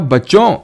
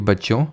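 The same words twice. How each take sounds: First: It is said with much greater loudness. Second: It is said at normal, soft loudness.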